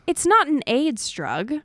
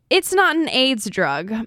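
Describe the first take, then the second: First: It is read with a cheerful attitude. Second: It is read with an annoyed attitude.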